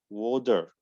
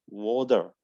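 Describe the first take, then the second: Both takes have the same delivery.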